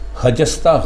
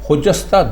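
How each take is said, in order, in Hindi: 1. पहला स्वर एक छोटा 'a' है। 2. पहला स्वर एक छोटा 'u' है। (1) "खजस्ता गलत है।" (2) "खुजस्ता दुरुस्त है।"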